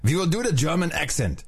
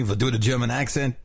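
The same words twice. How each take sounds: First: Higher-pitched put-on German accent; German from Brooklyn, accent laid on; mock German accent. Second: Light mock German with Brooklyn in it; hint of a German accent, Brooklyn-style; Brooklyn-tinged German accent. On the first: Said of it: "The Brooklyn German". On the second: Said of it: "That was Brooklyn, by the way". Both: Shown as a demonstration.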